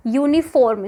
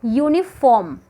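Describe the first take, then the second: First: यूनिफॉर्म with a full rolled r, local Haryanvi way; यूनिफॉर्म, r pronounced hard as in Haryanvi speech; Haryanvi-style pronunciation. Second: यूनिफॉर्म with the r nearly silent, "yoonifom"; यूनिफॉर्म, r barely there, standard English way; correct pronunciation. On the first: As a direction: say यूनिफॉर्म the regional way, r clearly sounded. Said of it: "Haryanvi टंग में नहीं". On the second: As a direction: soften the r away in यूनिफॉर्म. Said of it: "इसकी जो actual, अ, right sound होगी". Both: Shown as a demonstration.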